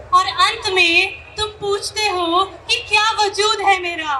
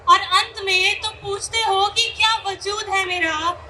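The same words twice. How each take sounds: The two takes are said the same way.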